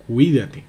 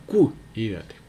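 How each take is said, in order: First: "cuídate" said louder, with the stress on the "cuí" syllable; correct stress demo. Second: "cuídate" drawn out very slowly, in the way the teacher rejects; wrong stress demo. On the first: Teacher giving the class the right "cuídate". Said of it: "sino que es cuídate". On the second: Teacher repeating the wrong "cuídate" as a warning. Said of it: "No cuídate". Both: Shown as a demonstration.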